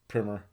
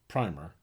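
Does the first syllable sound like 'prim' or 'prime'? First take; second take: prim; prime. First: The first syllable sounds like 'prim'. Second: The first syllable sounds like 'prime'. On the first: It names an introductory text. "book, primer" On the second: It names an undercoat of paint. "Paint, primer"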